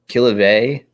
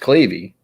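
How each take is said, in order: First: The name ends with an "ay" sound. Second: The name ends with an "ee" sound. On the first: The speaker calls it wrong. "people will say Killavey because they see V E Y and they think it's Vey" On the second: The speaker calls it right. "It's Clavy"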